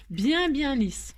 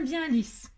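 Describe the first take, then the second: First: "bien" drawn out slowly and repeated, "lisse" landing firmly; slow emphatic stress. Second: Said in the usual way. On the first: Shown as a demonstration. Crafter insisting to viewers the foil be smooth, slow emphatic stress.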